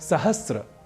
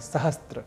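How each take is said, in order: First: No 't' sound comes before the 'r'. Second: A 't' sound comes before the 'r'. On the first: The speaker calls it right. "यह शब्द ही सर्वथा शुद्ध है" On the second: The speaker calls it wrong. "जबकि यह अशुद्ध है"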